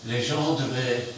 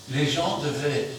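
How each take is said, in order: Both takes have the same delivery.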